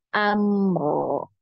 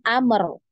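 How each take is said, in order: First: The final r flows on smoothly. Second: The final r bounces with an echo. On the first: The speaker calls it right. "sudah benar ya dialirkan" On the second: The speaker calls it wrong. "jangan amr ... itu berarti dia terpantul"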